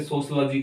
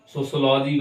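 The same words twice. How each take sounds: First: सोशलॉजी reduced to "sos-luh-jee"; correct pronunciation. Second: सोशलॉजी with a full "aw": "so-so-law-jee"; full-vowel pronunciation. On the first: Teacher giving learners the standard reading, सोशलॉजी with a short "luh". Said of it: "करके pronounce हो जाएगा". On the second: Teacher contrasting two readings, सोशलॉजी said with an open "law". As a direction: sound out every vowel in सोशलॉजी, long "law". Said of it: "वैसे सोशलॉजी करके pronounce हो जाएगा". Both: Shown as a demonstration.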